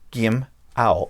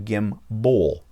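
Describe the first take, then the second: First: The second syllable sounds like 'owl'. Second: The second syllable sounds like 'bull'. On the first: The speaker calls it right. "he thought it was probably said as gimp, gim owl" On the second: The speaker calls it wrong. "I was calling it a gimbal because that's what it looks like"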